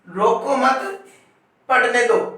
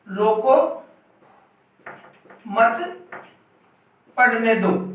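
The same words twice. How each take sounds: First: There is a pause after the second word. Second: There is a pause after the first word.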